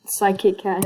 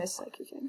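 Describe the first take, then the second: First: Said in the usual way. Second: Unvoiced whisper, breath only. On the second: Shown as a demonstration. Introducing his friend Psychic Cat in a whisper. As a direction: breathe the name out like a secret.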